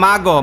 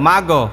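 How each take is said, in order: Both takes have the same delivery.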